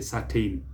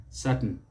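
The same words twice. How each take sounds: First: Certain said as sur-TAYN; mispronunciation. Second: Certain said as SUR-tn; correct pronunciation. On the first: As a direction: rhyme the end of certain with "rain". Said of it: "Don't say certain". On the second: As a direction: swallow the vowel ending certain. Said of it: "pronounce the same is certain". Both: Shown as a demonstration.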